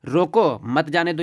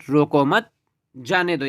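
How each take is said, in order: First: Slow रोको, a break, then मत जाने दो together; रोको on its own, मत attached to जाने दो; pause after रोको. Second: रोको मत as one unit, pause, then जाने दो; मत attached to रोको, जाने दो set apart; pause after मत. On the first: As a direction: split the phrase straight after रोको. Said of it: "पहला अर्थ क्या है". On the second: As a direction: hold the break until after मत. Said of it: "दूसरा अर्थ क्या निकल रहा है". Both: Shown as a demonstration.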